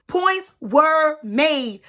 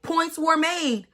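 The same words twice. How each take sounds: First: "Points were made." said slow and weighty, each word landed; emphatic Points were made. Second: Said in the usual way. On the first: Real, not acted. Conceding the regular's point, slow and weighty.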